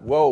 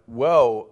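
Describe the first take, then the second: First: Said as a startled, halting exclamation. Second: Said as a dismayed, alarmed exclamation. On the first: Something unexpected calls for a pause. The speaker calls it wrong. "not whoa, wait a minute" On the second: Something terrible is about to happen. The speaker calls it right. "but whoa, oh no"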